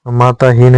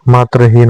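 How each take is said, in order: First: माताहीन with a long आ after त; wrong form. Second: मात्रहीन with the cluster त्र; correct form. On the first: Teacher voicing the wrong form, माताहीन. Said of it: "नहीं होता". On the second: Teacher giving the correct form, मात्रहीन. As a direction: say मात्रहीन with त्र clearly joined. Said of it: "होता है". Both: Shown as a demonstration.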